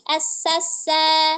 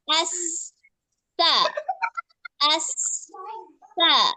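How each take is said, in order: First: The syllables are run together without pauses. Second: The syllables are separated by short pauses. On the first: The speaker calls it wrong. "Jangan sampai di asasa" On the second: The speaker calls it right. "Itu loh, ada temponya di situ"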